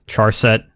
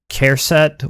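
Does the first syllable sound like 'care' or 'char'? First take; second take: char; care. First: The first syllable sounds like 'char'. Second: The first syllable sounds like 'care'. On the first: "I had some professors that said Char" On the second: "I say Care"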